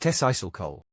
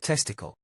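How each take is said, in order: First: The word is pronounced in a garbled, nonstandard way. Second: The word is pronounced in a standard way. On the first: The speaker calls it wrong. "I had to say it in a way Lafon would understand" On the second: The speaker calls it right. "For the rest of you that actually speak English"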